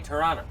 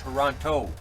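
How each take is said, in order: First: It is pronounced the way locals say it. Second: It is pronounced the way outsiders say it. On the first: The speaker is really from the city. The speaker calls it right. "If you're really from Toronto, you say Toronto" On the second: The speaker is not from the city. The speaker calls it wrong. "not Toronto"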